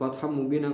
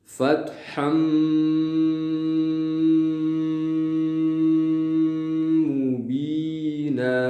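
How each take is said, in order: First: The nasal sound is short, not held. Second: The nasal sound is held for a long time. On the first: The speaker calls it wrong. "kalau gunanya tidak digunakan" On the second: The speaker calls it right. "fatham ditahan"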